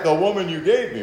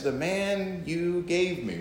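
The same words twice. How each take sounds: First: Mildly aggrieved husband, a bit higher; husband complaining. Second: Slow, drawn-out aggrieved wife; wife complaining. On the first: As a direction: grumble to the Lord about the wife. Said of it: "we have all said". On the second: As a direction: toss it back at the husband, slowly. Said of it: "she looks at you and says". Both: Acted.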